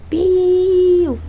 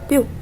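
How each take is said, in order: First: The word is drawn out and prolonged. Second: The word is said short and clipped. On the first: The speaker calls it wrong. "Isso é um som longo" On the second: The speaker calls it right. "é um som curto"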